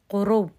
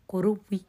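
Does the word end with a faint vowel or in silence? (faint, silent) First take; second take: silent; faint. First: The word ends abruptly with no final vowel. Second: The word ends with a faint, brief vowel.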